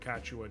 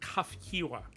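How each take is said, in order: First: The name is said in a simplified, loose form. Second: The name is said in a fuller, careful form. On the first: A shortcut used just to get through it. The speaker calls it wrong. "I keep screwing up, so I just keep saying fucking Kachua just to get through it" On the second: The more accurate pronunciation. The speaker calls it right. "Kafkiwa is the more accurate"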